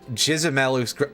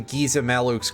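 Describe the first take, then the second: First: The first G is a soft G sound. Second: The first G is a hard G sound.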